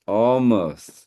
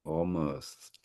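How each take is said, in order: First: Said in the usual way. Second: Hushed, whispered echo. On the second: Real, not acted. Host echoing the poem after hearing it, whispered. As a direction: whisper the word as if savouring it. Host savours the poem's key word.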